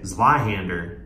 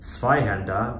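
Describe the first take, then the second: First: It is pronounced the American way. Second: It is pronounced the German way. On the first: "we say Zweihander, because we're here in Missouri" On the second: "we don't say Zweihander"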